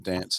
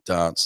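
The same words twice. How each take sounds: First: It is said with a Northern English accent. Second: It is said with a Southeast English accent. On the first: "more of a Northern England thing" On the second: "more of a Southeast specifically"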